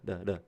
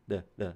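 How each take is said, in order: No difference in how they are said.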